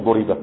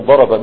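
First: ضرب said with u then i, "duriba"; passive-voice form. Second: ضرب said with a-vowels, "daraba"; active-voice form. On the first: Teacher naming the passive to avoid, passive pronunciation. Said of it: "هيروح البناء للمجهول". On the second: Teacher naming the verb to wonder at, active pronunciation. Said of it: "مش من ضرب". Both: Shown as a demonstration.

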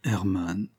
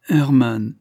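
First: Said in the usual way. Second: The name louder and higher, falling; insistent appeal. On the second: A narrator's reading. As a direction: call his name as a heartfelt reproach. Pleads, repeating his name.

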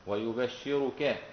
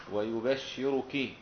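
First: ويبشرك as slow wa-yu-bash-shi-ru-ka; held double sh and final a in ويبشرك; doubled-sheen reading. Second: ويبشرك as slow wa-yu-bash-shi-ru-ki; held double sh and final i in ويبشرك; doubled-sheen reading. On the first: Teacher contrasting the other readers, ويبشرك as wa-yu-bash-shi-ru-ka. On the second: Teacher contrasting the other readers, ويبشرك as wa-yu-bash-shi-ru-ki. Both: Shown as a demonstration. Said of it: "بخلاف البقية إيش؟".

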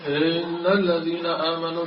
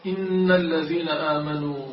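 First: إن stretched for the tune, with an extra sound added; mock melodic recitation. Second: إن said short and clean, with a doubled nun; correct recitation. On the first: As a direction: imitate reciters who decorate إن. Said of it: "ماذا يقولون لأجل النغم". (تقليد التمطيط لأجل النغم) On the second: Shown as a demonstration. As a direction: say إن crisply, no added vowel. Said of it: "تقول". (نطق صحيح لـ"إن")

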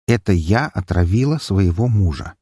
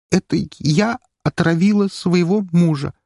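First: Said in the usual way. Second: Forced through with disgust, higher. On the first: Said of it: "повторите за мной". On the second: A narrator's reading. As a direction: spit the words out in revulsion. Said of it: "процедила она с выражением глубочайшего отвращения". (процедить с отвращением)

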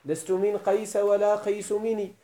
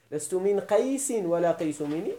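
First: First قيس ends in plain -a, qaysa; measured verse reading with qaysa for قيس; without nunation. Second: First قيس ends in -in, qaysin; verse reading with nunated qaysin for قيس; with nunation. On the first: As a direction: read قيس as qaysa, no final n, slowly. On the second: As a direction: read قيس as qaysin with a final n. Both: Shown as a demonstration. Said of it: "يجوز قراءته بالصرف وبالمنع من الصرف".

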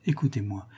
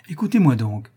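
First: "Écoutez-moi" said lower and softer; soft plea. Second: "écoutez-moi donc" louder, pressing; insistent. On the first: Countess hushes the baron to listen, soft. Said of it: "countess begs a hearing". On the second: Countess insists the baron hear her, louder. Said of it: "countess insists". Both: A narrator's reading.

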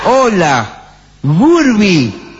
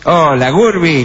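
First: Higher, lightly put-on cartoon voice; a hint of an old cartoon voice; voz de dibujo animado. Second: Slow, put-on old cartoon voice; 1930s cartoon. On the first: (voz de dibujo animado algo forzada) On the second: (voz de dibujo animado de los años treinta) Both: Shown as a demonstration. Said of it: "Más de dibujo animado".

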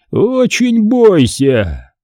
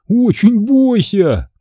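First: High, very slow menacing warning; ominous warning. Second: High, slow mocking imitation; Амг. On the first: Man warning the children, ominous and drawn out. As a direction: draw the threat right out, fully voiced. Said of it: "прошептал он". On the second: Boy mimicking the man for friends, mocking. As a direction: stretch out a hammed-up spooky warning. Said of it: "очень похоже, передразнил мистера Амга". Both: A narrator's reading.

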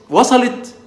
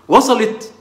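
First: وصلت؟ asked higher, with a rising end; a high, lifting check-in question; asking with rising tune. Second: وصلت؟ asked with a falling end, high pitch; a high, falling check-in question; asking with falling tune. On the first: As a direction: repeat it as a real question, pitch climbing up at the end. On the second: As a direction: check they got it, letting the question drop at the end. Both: Shown as a demonstration.

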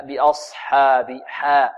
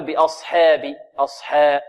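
First: Slow, careful بأصحاب with a pure open "aa" after ح; measured correct demo of بأصحاب; light haa, untilted. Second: بأصحاب with the long aa after ح tilted toward "e"; faulty fronted vowel in بأصحاب; wrong tilted haa. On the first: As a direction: keep the حا of بأصحاب light and open, never "heh". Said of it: "والحاء هنا مرققة بدون تقليل". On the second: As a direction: lean the حا toward "heh", as a mistake. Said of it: "بدون تقليل". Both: Shown as a demonstration.

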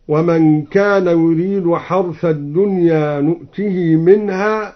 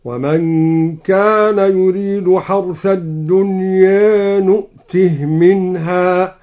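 First: Said in the usual way. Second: Slow recitation, نؤته ending on a still h; نؤته closed on a breathed h before منها; vowelless ha. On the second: Shown as a demonstration. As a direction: chant نؤته as nu'tih, no long i after the h. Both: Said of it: "قرأ الدوري بإسكان الهاء هكذا".

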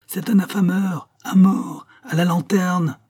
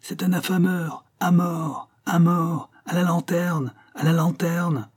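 First: Higher, louder mob chant; rising crowd clamour; crowd repeating the cry. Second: High chanted mob cries; mock mob chant, pitched high; crowd shouting. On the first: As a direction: echo the mob, a bit louder. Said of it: "répétaient de confiance". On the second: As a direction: call for his death like an angry crowd. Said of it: "des voix qui criaient". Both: A narrator's reading.

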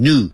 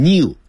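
First: "new" said as "noo"; pronounced without a glide. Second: "new" said as "nyoo"; pronounced with a glide. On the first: Teacher showing the pronunciation to copy, without a glide. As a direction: go straight from n to oo in "new". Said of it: "要念成new". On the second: Teacher warning students off this pronunciation, with a glide. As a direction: put a y glide after the n in "new". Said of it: "不要念成new". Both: Shown as a demonstration.

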